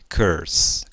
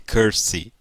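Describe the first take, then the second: First: The word ends with a plain s sound. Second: The word ends with an added vowel sound. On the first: The speaker calls it right. "fale curse, Acaba com S" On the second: The speaker calls it wrong. "Não fale curse"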